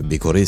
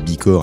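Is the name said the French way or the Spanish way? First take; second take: Spanish; French. First: The name is said the Spanish way. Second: The name is said the French way. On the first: The speaker calls it right. "c'est comme pour Barcelona Core" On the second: The speaker calls it wrong. "on a longtemps dit Bicor à cette antenne d'ailleurs, mais des Espagnols nous ont corrigé depuis"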